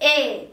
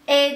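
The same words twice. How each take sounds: First: The vowel is a softened, narrower e sound. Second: The vowel is a plain, open e sound. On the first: The speaker calls it right. "E daha daha nasılsın dediğimdeki E gibi" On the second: The speaker calls it wrong. "E demiyorum"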